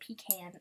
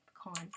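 First: "pecan" with a long ee and a flat can; pee-can pronunciation. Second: "pecan" with a short uh and a long ah; puh-kahn pronunciation. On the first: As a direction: say "pecan" as PEE-can, stress on the first syllable. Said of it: "some people say pecan". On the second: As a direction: say "pecan" as puh-KAHN, stress on the second syllable. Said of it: "I say pecan". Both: Shown as a demonstration.

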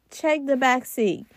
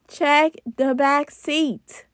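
First: Said in the usual way. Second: Slow, weighty "Check the back seat"; slow emphatic repeat. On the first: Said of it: "That is my key tip". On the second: Shown as a demonstration. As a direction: lean on "Check" and drag the words out slowly. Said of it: "that's an important one right there".

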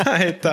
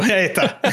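First: Said in the usual way. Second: Said through a laugh. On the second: Real, not acted. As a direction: let the laugh carry the words. Laughs at cheating joke.

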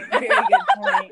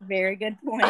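First: High and loud through laughter; laughing. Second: Said in the usual way. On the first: Real, not acted. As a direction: crack up on the repeat. Repeats remark, then laughs.

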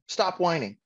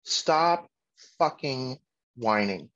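First: Said in the usual way. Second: "Stop fucking whining" one word at a time; slow, with a pause after "Stop" and after "fucking"; emphatic command. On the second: Real, not acted. Father laying down his rule, "Stop fucking whining" word by word.

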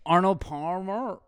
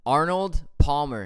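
First: "Arnold Palmer" said slowly with full r's; slow careful pronunciation. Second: "Arnold Palmer" slowly with clear r's; finally nail "Arnold Palmer" clearly; careful pronunciation. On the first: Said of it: "Back to the Chipotle". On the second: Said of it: "Nailed it". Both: Shown as a demonstration.

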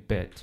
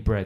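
First: "bed" for bread, the R left out; Geordie dropped R. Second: "bread" with a clear R after the b; standard bread. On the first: Showing a co-host how Geordies say "bread", R dropped. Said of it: "他的R会就是omit". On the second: Explaining to a co-host how most people say "bread", R kept in. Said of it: "面包你会念bread". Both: Shown as a demonstration.

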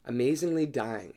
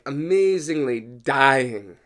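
First: Said in the usual way. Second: "amazingly dying" drawn out slowly and louder; dramatic stretch. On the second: Shown as a demonstration.

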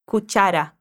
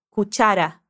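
First: Cuchara repeated, ch like tchau. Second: Cuchara with a clear tch sound; ch as in tchau. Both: Shown as a demonstration. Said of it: "O C H vai ter o mesmo som quando a gente fala tchau".

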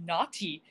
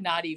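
First: "naughty" with a crisply sounded T; very precise, articulated "naughty"; over-enunciated. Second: Said in the usual way. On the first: Retold or imitated. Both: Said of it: "She said naughty very enunciatively".

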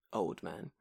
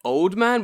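First: Said in the usual way. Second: Put-on OLD MAN pitched high and loud; "old man" lifted in a big, loud swell; stress on OLD MAN. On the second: Shown as a demonstration. Contrasts two kinds of old man.

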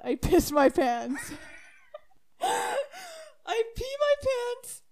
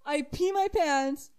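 First: Words squeezed out through laughter, higher and slower; can't hold back the laughing; laughing hard. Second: Said in the usual way. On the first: Real, not acted. Laughing at own mishap.

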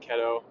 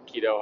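First: "keto" said with a short e, KEH-doh; alternate pronunciation. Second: "keto" said with a long ee, KEE-doh; "keto" starting like the word "key"; common pronunciation. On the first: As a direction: say "keto" as KEH-toh, first vowel as in "get". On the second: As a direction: say "keto" as KEE-toh, first vowel as in "key". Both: Shown as a demonstration. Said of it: "however you wanna pronounce it".

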